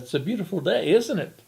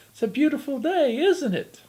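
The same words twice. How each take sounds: First: Fairy godmother voice. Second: High, sweet put-on fairy godmother voice. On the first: Acted. Devil greets the old man. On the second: Devil in disguise greets the grumbling old woman, high fairy godmother voice. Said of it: "says in his best fairy godmother voice".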